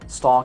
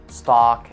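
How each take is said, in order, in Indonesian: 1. Kata ini diucapkan dengan aksen Inggris. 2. Kata ini diucapkan dengan aksen Amerika. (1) "Yang saya jelaskan ini adalah simbol dalam dalam dalam sini, dalam Oxford" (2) "Dalam American accent dibacanya kayak"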